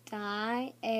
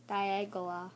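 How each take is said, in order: First: DIALGA broken into slow, separate syllables; sounding out. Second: Said in the usual way. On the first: Shown as a demonstration. Trying a hard name with the viewers, sounding it out. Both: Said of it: "let me try and pronounce this".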